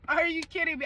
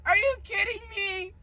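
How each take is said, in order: First: Said in the usual way. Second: High, cracked disbelief; incredulous. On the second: Retold or imitated. Telling viewers how she reacted to his mom, high and incredulous. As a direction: ask it like you can't believe it.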